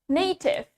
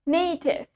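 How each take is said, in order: The two takes are said the same way.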